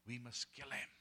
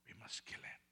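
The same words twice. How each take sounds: First: Said in the usual way. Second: Whispered threat; conspiratorial whisper. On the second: Acted. Plotters whispering their plan to kill the preacher. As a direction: whisper it like a secret plot.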